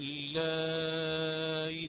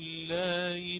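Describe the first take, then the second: First: The vowel before the softened hamza is moderately lengthened. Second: The vowel before the softened hamza is kept short. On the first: "أتيت بالتوسط أولا ثم سهلت هذا الهمز المكسور" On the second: "وله وجه القصر"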